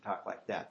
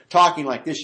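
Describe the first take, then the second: First: Lower, softer confidential voice; into the ear. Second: Said in the usual way. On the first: Shown as a demonstration. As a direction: drop it as if speaking into someone's ear. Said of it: "get up to the ear". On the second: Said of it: "instead of talking like this".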